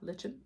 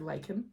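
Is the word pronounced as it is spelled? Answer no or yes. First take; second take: yes; no. First: The word is pronounced the way it's spelled. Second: The word is not pronounced the way it's spelled.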